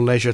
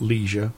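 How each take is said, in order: First: The word is said with a British pronunciation. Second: The word is said with an American pronunciation. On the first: "That's the British pronunciation" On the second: "Not leisure"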